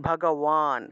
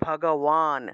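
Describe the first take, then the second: First: The consonant before the last syllable is w. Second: The consonant before the last syllable is w.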